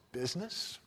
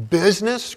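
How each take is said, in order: First: Soft, stunned echo of the word Business; hushed disbelief. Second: Business cried out high and loud; anguished cry. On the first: Marley's ghost repeats Scrooge's word, soft and stunned. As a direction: murmur Business as if it stings. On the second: Marley's ghost cries back at Scrooge, anguished and loud. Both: Acted. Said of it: "cried the ghost".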